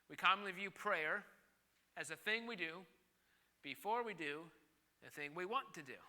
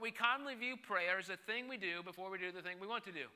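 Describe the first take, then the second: First: It is said more slowly. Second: It is said at normal speed.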